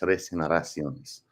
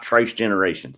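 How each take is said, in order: First: The last word is said with Spanish sounds. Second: The last word is said like English generations. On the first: The speaker calls it right. "That's how you actually pronounce it" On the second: The speaker calls it wrong. "It's not Tres Generations"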